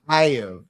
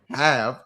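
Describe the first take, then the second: First: The word is drawled in a Southern American accent. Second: The word is said in a plain accent. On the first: "everyone dips in their words... it's like have" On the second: "rather than saying have"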